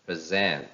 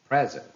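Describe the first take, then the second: First: "present" with weak first syllable, strong falling ZENT; stress on second syllable. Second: "present" with high, loud PREZ, falling away; stress on first syllable. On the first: Teacher reads verbs for practice, "present" stressed on SENT. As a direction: say "present" as pre-ZENT, the verb. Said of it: "second part of the word takes". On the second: Teacher reads nouns for practice, "present" stressed on PRES. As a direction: say "present" as PREZ-ent, the noun. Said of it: "How will they sound if they are noun". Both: Shown as a demonstration.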